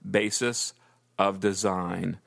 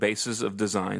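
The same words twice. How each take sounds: First: The phrase is spoken at a slower pace. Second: The phrase is spoken at a fast pace.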